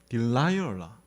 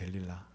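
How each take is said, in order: First: The name is said as English-style di-lai-eo-la. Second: The name is said as Korean-style del-li-la. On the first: "발음이 딜라이얼라 이렇게 읽어야 되거든요" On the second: "여기 보면 델릴라라고 되어 있습니다"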